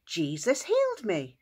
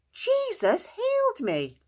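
First: Raised pitch, moderately excited; excited calling out. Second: Very high, slow, drawn-out shout; exultant shouting. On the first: Healed man telling the town, calling out excitedly. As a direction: announce it with joy, holding a little back. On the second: Healed man proclaiming to the town, shouting exultantly. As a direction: stretch it out at the top of the voice. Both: Acted. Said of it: "he ran into town shouting".

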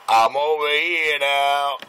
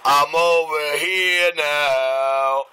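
First: Slowly drawn out; slow drawl. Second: Dragged out very slowly; very slow drawl. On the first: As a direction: stretch it slowly. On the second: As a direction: stretch every word even slower. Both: Shown as a demonstration.

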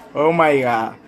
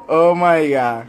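The two takes are said the same way.

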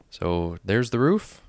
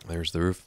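First: Drawn-out, louder showcase of the roof; proud reveal. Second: Said in the usual way. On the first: Real, not acted. Showing viewers the new roof, proud loud reveal. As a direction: announce it with a slow rising flourish.

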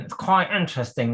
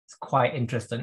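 First: Higher, keen nerdy enthusiast voice. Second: Said in the usual way. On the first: Shown as a demonstration. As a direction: gush it like an eager nerd. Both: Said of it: "as my nerdy voice".

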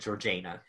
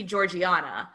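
First: Georgiana in three syllables, JAY stressed; pronunciation from film. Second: Georgiana in four syllables, ending AH-na; pronunciation as read. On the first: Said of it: "they said Georgiana". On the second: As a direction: say Georgiana as "jor-jee-AH-na". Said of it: "when I look at it". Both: Shown as a demonstration.

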